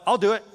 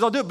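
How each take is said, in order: First: God's promise, louder and higher; emphatic God's reply. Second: Said in the usual way. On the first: Acted. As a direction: proclaim it with rising conviction.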